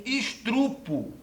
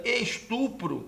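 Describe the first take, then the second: First: Estrupo said slowly as es-TRU-po, with the R moved after the T; the mistaken estrupo, drawn out to show the error; slow, marked estrupo; wrong estrupo. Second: Estupro said as es-TU-pro, R only after the P; the correct estupro, plainly. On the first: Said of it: "que é barbarismo ortográfico". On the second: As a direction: estupro with a single R. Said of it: "que é a forma correta". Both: Shown as a demonstration.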